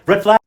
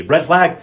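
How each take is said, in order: First: Red flag, higher and louder with a rise; louder rising warning. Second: A loud flat red flag; loud warning. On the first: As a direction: raise it up like an alarm. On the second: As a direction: call it out loud, flat and firm. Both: Real, not acted.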